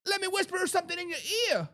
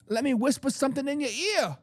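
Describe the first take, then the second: First: Higher, softer and fast, teasing; hushed, quick mocking tease; mock whisper taunt. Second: Said in the usual way. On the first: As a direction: lean in and tease Kyle Shanahan. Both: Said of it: "And the Dallas Cowboys say".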